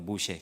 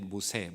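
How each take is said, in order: First: The middle consonant is a 'sh' sound. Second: The middle consonant is a plain 's' sound. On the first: This is the original Hebrew form of the name. "발음만 다르게 하면 모세가 되는 거예요" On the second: This is how Korean speakers usually say the name. "모세라고 우리는 발음을 하죠"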